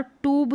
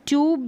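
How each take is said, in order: First: ट्यूब without the glide, "toob"; oo pronunciation. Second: ट्यूब with a y-glide, "tyoob"; yoo pronunciation. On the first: Teacher showing the second accepted way, ट्यूब as "toob". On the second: Teacher showing the first accepted way, ट्यूब as "tyoob". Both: Shown as a demonstration. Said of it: "यू का उच्चारण भी और ऊ का उच्चारण".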